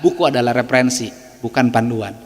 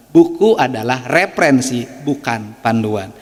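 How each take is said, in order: First: Said in the usual way. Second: Slow and deliberate, letting each word land; slow emphatic repeat. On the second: Shown as a demonstration. Speaker repeats his maxim to teachers, slow and deliberate. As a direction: spell out the maxim slowly so it sinks in.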